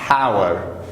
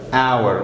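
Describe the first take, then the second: First: The h at the start is sounded. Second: The h at the start is silent. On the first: The speaker calls it wrong. "Not hour" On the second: The speaker calls it right. "H is silent here"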